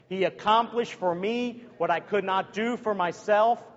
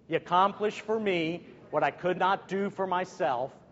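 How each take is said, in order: First: It is said with more enthusiasm and energy. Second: It is said in a plain, less energetic way.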